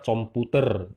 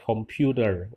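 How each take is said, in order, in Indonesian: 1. Diucapkan dengan aksen Indonesia. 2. Diucapkan dengan aksen Inggris. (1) "kalau orang Indonesia komputer" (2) "kalau orang asing bilang computer"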